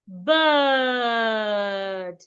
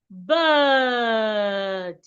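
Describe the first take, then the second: Both takes have the same delivery.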